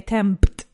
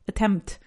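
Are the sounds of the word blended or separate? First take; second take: separate; blended. First: The sounds are pronounced separately, as spelled. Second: The sounds are blended together into one. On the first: The speaker calls it wrong. "you wouldn't say attempt" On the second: The speaker calls it right. "That you put the kind of in one sound"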